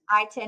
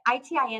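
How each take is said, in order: First: It is said loosely with little mouth movement. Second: It is said carefully with full mouth movement. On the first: The speaker calls it wrong. "is lazy" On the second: The speaker calls it right. "is correct"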